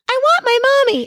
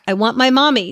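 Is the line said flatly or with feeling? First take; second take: with feeling; flatly. First: It is said with strong feeling in a voice. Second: It is said flatly without feeling.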